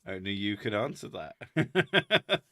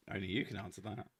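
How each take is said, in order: First: Slow, flat deadpan reply. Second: Softer, quicker deadpan reply; quiet deadpan. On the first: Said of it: "He's like". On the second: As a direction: throw it away quietly. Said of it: "I'm gonna just". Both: Retold or imitated.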